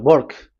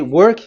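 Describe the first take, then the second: First: It imitates an Indian accent, W like B. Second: It is said with a plain W sound.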